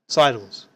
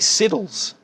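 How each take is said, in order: First: The first vowel is a long 'eye' sound. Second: The first vowel is a short 'ih' sound. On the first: The speaker calls it right. "it's sidles. That's how you pronounce it" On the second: The speaker calls it wrong. "I heard people try to say siddles. You know, that really bothers me"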